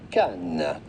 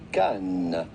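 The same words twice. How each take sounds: First: The final S sound is silent. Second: The final S sound is silent.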